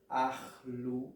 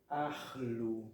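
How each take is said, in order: The two takes are said the same way.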